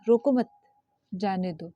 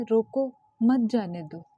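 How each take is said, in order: First: रोको मत together, break, lower जाने दो; group "रोको मत", then drop on जाने दो; pause after मत. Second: रोको set apart, then मत जाने दो together; slow रोको, break, then "मत जाने दो"; pause after रोको. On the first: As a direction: break the phrase right after मत. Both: Shown as a demonstration. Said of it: "ये दोनों का अर्थ अलग-अलग हो गया है".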